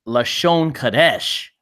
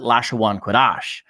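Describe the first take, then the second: First: The first word has a plain single 'a' vowel. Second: The first word's vowel is drawn out as 'awa'.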